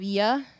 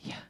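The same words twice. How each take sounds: First: The sound is said with full voice. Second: The sound is said without voice, breathily.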